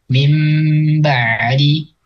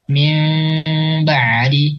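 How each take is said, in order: First: The m is held with lips softly closed. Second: The m is held with a slight lip gap. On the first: "dilekatkan bibir atas bibir bawahnya tapi tidak ditekan" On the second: "menyisakan sedikit celah di antara dua bibir"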